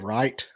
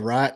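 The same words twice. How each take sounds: First: It is carefully enunciated and neutral. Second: It has a rural Southern drawl. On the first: This is how he speaks now. "I started enunciating certain stuff" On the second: This is how he spoke before. "I used to say right"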